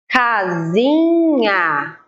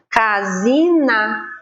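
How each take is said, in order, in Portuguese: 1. A última sílaba tem um som palatal 'nh'. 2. A última sílaba tem um som 'n' simples. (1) "o som do N H é nha" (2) "senão ele ficaria casina, ... a gente não fala desse jeito"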